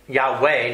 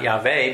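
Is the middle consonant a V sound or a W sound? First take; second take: W sound; V sound. First: The middle consonant is a W sound. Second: The middle consonant is a V sound. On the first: The speaker calls it right. "it's WWW" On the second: The speaker calls it wrong. "not VVV"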